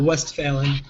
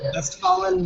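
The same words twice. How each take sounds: First: The name is said with an American pronunciation. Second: The name is said with a German pronunciation.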